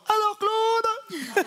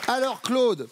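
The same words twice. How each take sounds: First: Very high, drawn-out call; high-pitched call. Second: Said in the usual way. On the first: Pretend. Host re-addressing contestant Claude, high-pitched put-on call. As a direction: sing it out way up high.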